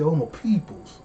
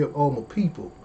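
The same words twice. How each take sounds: First: "all my peoples" with a playful twang; comic "peoples" for people; "peoples" with an extra s. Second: Said in the usual way. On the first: Shown as a demonstration. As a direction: say "all my peoples", plural s added. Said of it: "I say all my peoples". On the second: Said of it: "I don't say all my people".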